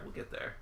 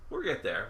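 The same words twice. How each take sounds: First: Soft whispered repeat; whispering. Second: Said in the usual way. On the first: Real, not acted. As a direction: breathe it under your breath. Repeats reassurance, then drops to whisper.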